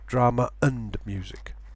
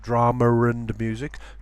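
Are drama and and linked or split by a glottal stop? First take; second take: glottal stop; linked. First: A glottal stop separates drama from and. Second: Drama runs into and with a linking sound. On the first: The speaker calls it right. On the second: The speaker calls it wrong.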